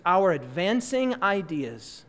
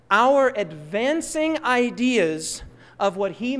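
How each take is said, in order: First: "advancing" drawn out slowly and leaned on; slow read with weight on "advancing"; stress on advancing. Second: Said in the usual way. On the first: Shown as a demonstration. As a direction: press the word "advancing" slowly. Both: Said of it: "Notice the emphasis".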